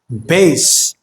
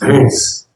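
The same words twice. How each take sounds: First: The voice sounds thinner with less low end. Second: The voice sounds boomy with much more low end. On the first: "The closer you get to a mic, the more bass you will get" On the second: "If you put your hand like this, it's more pronounced"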